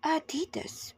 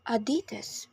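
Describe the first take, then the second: First: Adidas with stress on the first syllable, AH-di-das; British Adidas. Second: Adidas with stress on the second syllable, ah-DEE-das; American Adidas. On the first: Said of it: "in the U K it's pronounced". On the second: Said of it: "Americans say". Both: Shown as a demonstration.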